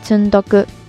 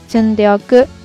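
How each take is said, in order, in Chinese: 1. 中间部分缩略成更少的音节。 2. 完整形式的每个音节都会发出来。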